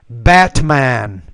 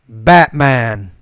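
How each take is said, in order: First: The T is fully pronounced. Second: The T is a glottal stop. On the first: "I'll pronounce the T the first time" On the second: "the second time I'll do it with the glottal stop"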